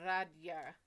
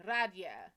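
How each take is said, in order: First: Radia said as RAH-dah, falling; best try at Radia. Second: Radia said as RAH-dyah, louder and falling; best try at Radia. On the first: Trying again to pronounce a viewer's name, Radia clipped to RAH-dah. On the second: Settling on her closest version of the name, Radia as RAH-dyah. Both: Shown as a demonstration. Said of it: "That's as close as I can get".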